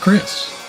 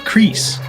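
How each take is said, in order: First: The name has a short vowel, like 'kiss'. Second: The name has a long vowel, like 'crease'.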